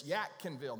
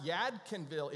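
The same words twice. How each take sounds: First: Yadkinville said YAT-kin-vil; local pronunciation. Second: Yadkinville with a clear D, YAD-kin-vil; non-local pronunciation. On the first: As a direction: harden the D of Yadkinville to a T. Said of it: "Make sure you get that right". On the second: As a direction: sound the D in Yadkinville. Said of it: "it's not Yadkinville". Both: Shown as a demonstration.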